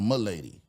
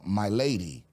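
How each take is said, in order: First: The words are run together and clipped. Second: Both words are said fully and carefully. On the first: It marks a poor servant. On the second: It marks a speaker of high birth.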